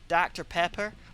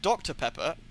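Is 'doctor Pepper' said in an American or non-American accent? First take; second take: American; non-American. First: It is said in an American accent. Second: It is said in a non-American accent. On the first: This is how the locals say it. "Americans pronounce doctor as da, it's like doctor... they say like doctor, doctor Pepper, like that" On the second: This is how the visitor said it, and nobody understood. "Whereas I said doctor Pepper"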